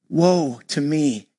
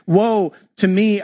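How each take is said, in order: First: Low, slow, drawn-out lament; anguished cry. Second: The cry lifted and louder, slowed. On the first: Pastor reading Isaiah's cry before God, low slow lament. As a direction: let the woe sink low and slow. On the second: Pastor repeating Isaiah's cry to the church, louder plea. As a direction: raise the woe into a louder plea. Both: A narrator's reading. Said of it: "I cried".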